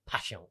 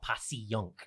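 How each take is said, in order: First: The name is said with two syllables. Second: The name is said with three syllables. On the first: The speaker calls it right. "I always say it's two syllables" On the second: The speaker calls it wrong. "not three. It's not Passyunk"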